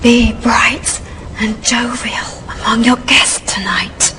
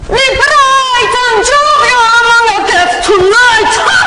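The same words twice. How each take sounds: First: It is delivered in a quiet whisper. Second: It is delivered in an Italian chef's accent.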